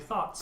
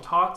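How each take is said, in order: First: It starts with a th sound. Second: It starts with a plain t sound. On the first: The speaker calls it right. "the correct pronunciation is apparently thoughts" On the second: The speaker calls it wrong. "and then I called them tots"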